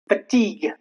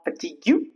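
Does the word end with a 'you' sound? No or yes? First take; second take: no; yes. First: It ends without a 'you' sound. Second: It ends with an added 'you' sound. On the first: The speaker calls it right. "rules where you remain silent, ending in G U E" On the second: The speaker calls it wrong.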